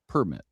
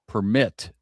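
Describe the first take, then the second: First: The stress is on the first syllable. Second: The stress is on the second syllable. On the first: "the second possibility is the way you say it" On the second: "So mit is stressed"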